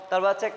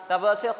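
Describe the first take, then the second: Both takes have the same delivery.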